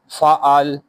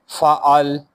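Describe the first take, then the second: First: The word ends on the consonant 'l'. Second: The same.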